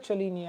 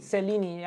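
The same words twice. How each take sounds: First: "Cellini" said with a CH sound at the start; own accented pronunciation. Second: "Cellini" said with an S sound at the start; soft-C pronunciation. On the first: Watch collector showing how they say it, CH in "Cellini". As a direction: pronounce "Cellini" as "cheh-LEE-nee". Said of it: "I call it Cellini". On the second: Watch collector echoing the host's correction, soft S in "Cellini". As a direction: pronounce "Cellini" as "seh-LEE-nee". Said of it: "probably I'm pronouncing it wrong". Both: Shown as a demonstration.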